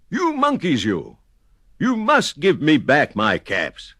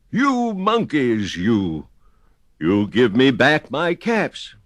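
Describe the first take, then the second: First: High, mild storybook shout; shouting peddler. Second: High, slow scolding, mildly angry; angry peddler. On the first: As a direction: stamp and shout at the monkeys, hammed-up. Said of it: "He stamped both his feet and shouted". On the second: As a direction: scold the monkeys, a touch cross. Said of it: "This made the peddler angry". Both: A narrator's reading.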